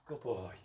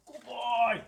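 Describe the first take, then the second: First: Said in the usual way. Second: Excited praise. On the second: Real, not acted. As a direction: gush over the dog, high and loud. Praising dog, much higher and louder.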